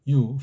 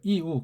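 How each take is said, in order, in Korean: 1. 한 음절로 발음해요, yu. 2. 두 음절로 발음해요, i-u. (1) "유유하는 거예요" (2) "유가 아니고 이우예요"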